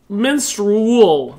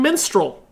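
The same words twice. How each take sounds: First: The word has a slight 'u'-like vowel in it. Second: The word has no 'u'-like vowel in it. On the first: This is how others hear it. The speaker calls it wrong. "There's a little bit of a U in there" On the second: This is how the speaker actually says it. The speaker calls it right. "There's no U in my pronunciation"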